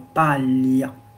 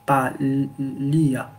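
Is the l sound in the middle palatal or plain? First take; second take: palatal; plain. First: The middle l is palatal, like French paille. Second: The middle l is a plain l sound. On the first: The speaker calls it right. "Comme dans la paille" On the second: The speaker calls it wrong. "On va pas lire palia"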